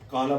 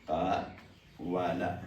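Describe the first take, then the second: First: It has one long 'aa' vowel in the middle. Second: It has a separate 'wa' syllable in the middle. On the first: This is the actual, easier spoken form of the word. "काला बोलना आसान है" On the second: This is the original underlying form of the word. "ये असल में था कवाल। ... पढ़ना मुश्किल हो गया"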